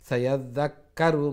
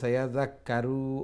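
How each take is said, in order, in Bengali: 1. শেষ স্বরধ্বনিটি হ্রস্ব এবং দ্রুত। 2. শেষ স্বরধ্বনিটি টেনে দীর্ঘ করে বলা হয়। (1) "তাড়াতাড়ি আর হঠাৎ গেলে গিয়ে" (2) "সময় নিলে ... লং হয়ে যাব"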